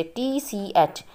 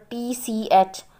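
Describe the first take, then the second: First: Each letter drawn out slowly; slow, deliberate spelling. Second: Said in the usual way. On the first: Shown as a demonstration. Teacher spelling out the trigraph for students, slow and deliberate. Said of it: "तो ये सब ट्राइग्राफ हैं इसमें से". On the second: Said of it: "For example".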